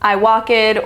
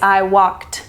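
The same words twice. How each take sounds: First: The ending is an extra 'ed' syllable. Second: The ending is a plain T sound. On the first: The speaker calls it wrong. "They'll say" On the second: The speaker calls it right. "It's I walked"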